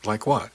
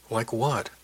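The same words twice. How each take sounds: First: Said in the usual way. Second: Mildly gentle question. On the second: A narrator's reading. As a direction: ask it with a touch of tenderness. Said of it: "asked ever so gently".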